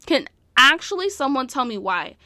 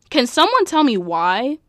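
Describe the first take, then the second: First: ACTUALLY punched, then falling at the end; insistent question with ACTUALLY stressed. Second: Louder, exasperated question; bewildered, pressing for an answer; baffled plea. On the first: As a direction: lean hard on the word "actually". Repeats plea, stressing actually. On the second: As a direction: ask it in loud disbelief. Baffled plea about the fight. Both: Real, not acted.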